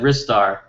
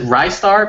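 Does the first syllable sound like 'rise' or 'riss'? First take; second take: riss; rise. First: The first syllable does not sound like 'rise'. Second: The first syllable sounds like 'rise'. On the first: This is how the speaker has always said it. "I've always said Ristar" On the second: The name comes from 'rising star'. "you can pronounce it Ristar because it's like rising star"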